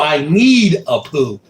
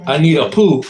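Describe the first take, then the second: First: "need" drawn out long and slow; slow reread leaning hard on "need"; stress on NEED. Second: Said in the usual way. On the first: Real, not acted. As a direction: stretch out NEED as the message dawns. Repeats message as it dawns on him.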